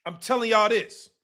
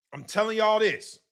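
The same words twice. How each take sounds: The two takes are said the same way.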